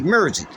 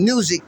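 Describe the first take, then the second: First: The vowel sound is said Memphis-style. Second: The vowel sound is said in a neutral way. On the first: "they'll say music" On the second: "instead of saying music"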